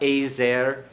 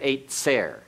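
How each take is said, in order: First: The middle consonant is a smooth z sound. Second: The middle consonant is a hard ts sound. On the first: The speaker calls it right. "a little bit smoother on the Zion" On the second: The speaker calls it wrong. "Don't make it real hard"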